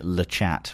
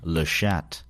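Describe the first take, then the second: First: The name is said in an anglicized way. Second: The name is said in a French way. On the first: The speaker calls it wrong. "knowing it was French, still pronounced it LeChat" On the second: The speaker calls it right. "which I think it actually is"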